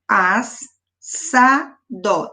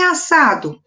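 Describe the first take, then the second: First: "as, sa, dó" in three separated beats, falling on "dó"; syllable by syllable. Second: Said in the usual way. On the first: Shown as a demonstration. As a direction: break "as, sa, dó" apart between the two S sounds. ("as, sa, dó" sílaba por sílaba, com pausas) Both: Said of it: "dois S's".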